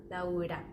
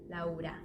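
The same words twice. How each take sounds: Both takes have the same delivery.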